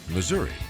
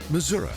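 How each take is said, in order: First: It uses the other, non-local pronunciation. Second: It uses the local western Missouri pronunciation. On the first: The speaker is not a local from the western part of the state. "not Missouri" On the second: The speaker is a local from the western part of the state. "many locals call their home state Missouri"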